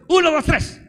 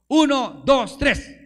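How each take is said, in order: First: Much higher and louder count, pushing for a bigger cheer; preacher demanding a stronger cheer, shouting the count. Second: Counting one two three loud and high to cue the crowd; preacher shouting the count so the church cheers. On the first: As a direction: belt the count out all the way. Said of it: "Otra vez". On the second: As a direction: call the count out to the congregation. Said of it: "me van a dar ustedes ... un fuerte grito de júbilo". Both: Shown as a demonstration.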